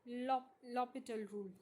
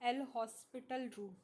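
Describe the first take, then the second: First: The h sound in the name is silent. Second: The h sound in the name is pronounced. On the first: The speaker calls it right. "यहाँ पे जो एच होता है वो क्या होता है चिल्ड्रन? साइलेंट होता है।" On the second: The speaker calls it wrong. "अब बच्चे क्या बोलेंगे इसे?"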